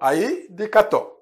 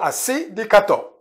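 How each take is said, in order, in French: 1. Le premier mot est contracté en un court 'ai'. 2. Le premier mot est dit en entier avec 'si'. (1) "quand c'est contracté, quand on va rapidement, tu vas entendre Aï" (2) "C'est pareil"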